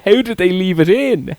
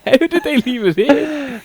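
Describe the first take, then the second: First: Retold scream. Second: Squealing, slow; shrieking through laughter, slowly; mock scream, higher. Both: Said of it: "I started screaming".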